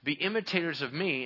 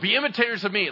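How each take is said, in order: First: It is said in a plain, humble tone. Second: It is said in a proud, self-important tone. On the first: The speaker points beyond himself as an example. The speaker calls it right. "here's what you're doing" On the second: The speaker presents himself as the source of the example. The speaker calls it wrong. "Like as if you came up with it"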